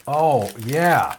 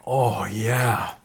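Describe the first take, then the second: First: Words round a bite; mouth full. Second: Mumbling while chewing; mouth full. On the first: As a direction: still chewing, clearer. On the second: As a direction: speak round a bite. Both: Real, not acted. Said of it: "I'm eating a".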